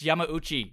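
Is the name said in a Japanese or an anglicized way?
Japanese. The name is said with Japanese pronunciation. The speaker calls it right. "It's Yamauchi"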